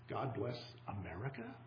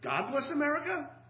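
First: The questioning rise falls on the word America. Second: The questioning rise falls on the word God. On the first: It suggests God has rejected the country. "Put the question mark after America alone" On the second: It questions whether God exists. "put the question mark after God alone"

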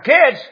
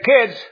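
First: The word is said with strong, forceful emphasis. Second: The word is said with normal, mild force.

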